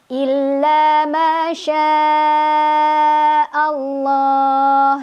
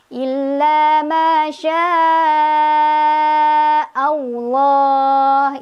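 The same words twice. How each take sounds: First: The L in Allah is thin and light. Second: The L in Allah has a W-like glide. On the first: "lohnya masih tipis" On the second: "Itu ada W-nya juga salah"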